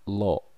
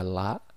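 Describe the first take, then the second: First: The L is heavy, with an o-like vowel. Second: The L is light, with a clear a vowel. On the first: "menggunakan kosakata o, dibaca lo" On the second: "menggunakan kosakata a, dibaca la"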